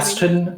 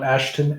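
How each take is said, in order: First: The middle consonant is a plain s sound. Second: The middle consonant is an sh sound. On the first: The speaker calls it right. "Aston, not Ashton" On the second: The speaker calls it wrong. "not Ashton"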